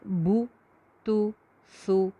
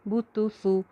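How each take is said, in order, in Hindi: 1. हर अक्षर रुक-रुक कर अलग से कहा जाता है। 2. अक्षर बिना रुके आपस में मिलाकर कहे जाते हैं। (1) "अलग से पढ़ें" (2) "मिला के पढ़ें"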